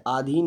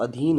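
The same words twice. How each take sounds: First: आधीन with a long stretched first vowel, aa-dheen; wrong pronunciation. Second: अधीन with a short opening a, a-dheen; correct pronunciation. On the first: Teacher showing students the wrong form, आधीन with long aa. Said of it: "आधीन नहीं होता दोस्तों". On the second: Teacher giving students the right form, अधीन with short a. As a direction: say अधीन crisply, short first vowel. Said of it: "अधीन होता है". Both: Shown as a demonstration.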